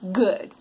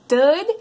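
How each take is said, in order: First: It begins with a G sound made at the back. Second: It begins with a D sound made at the front. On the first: The speaker calls it right. "instead of back here" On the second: The speaker calls it wrong. "tapping their tongue behind their top teeth"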